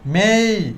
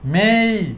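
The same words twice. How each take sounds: First: The vowel is stretched out and gliding. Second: The same.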